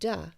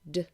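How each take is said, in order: First: An extra vowel sound follows the consonant. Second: The consonant is said alone without a vowel. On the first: The speaker calls it wrong. "not add a schwa at the end of the sound" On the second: The speaker calls it right. "as opposed to d"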